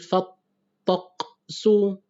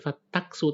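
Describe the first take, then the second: First: The middle consonant is a deep throat q. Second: The middle consonant is a plain front k. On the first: The speaker calls it right. "tapi tok. Jadi fattaqsu" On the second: The speaker calls it wrong. "bukan fattaksu"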